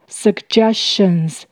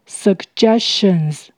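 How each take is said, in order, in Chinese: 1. 第一个 g 发硬 g 音。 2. 第一个 g 发硬 g 音。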